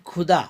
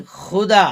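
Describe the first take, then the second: First: खुदा with aspirated kh; plain kh sound. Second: खुदा with a throaty fricative x; nukta x sound. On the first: Teacher contrasting खुदा without nukta. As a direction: say खुदा as khuda, stop sound. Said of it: "लेकिन खुदा". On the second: Teacher showing खुदा with nukta, throaty. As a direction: say खुदा as xuda, rough throat. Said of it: "लेकिन खुदा तो भगवान". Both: Shown as a demonstration.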